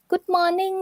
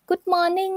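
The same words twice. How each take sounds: First: It is said with a Thai accent. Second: It is said with a Thai accent.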